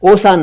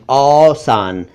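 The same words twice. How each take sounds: First: "औसान" mispronounced "osaan", higher, closed o; wrong o vowel. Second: "औसान" with long open au; correct au vowel. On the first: Teacher rejects mistaken औसान, o sound. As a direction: start "औसान" with "oh". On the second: Teacher corrects to औसान, au sound. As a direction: say "औसान" as "aww-saan". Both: Shown as a demonstration. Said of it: "औसान नहीं".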